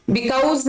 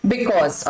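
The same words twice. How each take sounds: First: "Because" said as "bi-cowz", with an "ow" vowel; the wrong way: "Because" rhyming with "cows"; wrong pronunciation. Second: "because" said "bi-koz", short "o" vowel; the right way: "because" as "bi-koz"; correct pronunciation. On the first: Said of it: "because गलत pronunciation है". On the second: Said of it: "correct है because". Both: Shown as a demonstration.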